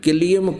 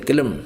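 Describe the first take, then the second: First: The word is said with a 'liyam' ending. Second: The word is said with a short 'lam' ending. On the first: The speaker calls it right. "ये किलियम को किलम बोलते हैं" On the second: The speaker calls it wrong. "किलम बोलते हैं"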